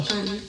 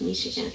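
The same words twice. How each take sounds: First: "Michoacan" with a heavily pronounced ch; heavy ch sound. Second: Said in the usual way. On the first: Shown as a demonstration. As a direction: lean on the ch in "Michoacan". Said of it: "pronounce the ch sound more heavily". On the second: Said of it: "It's like Michigan".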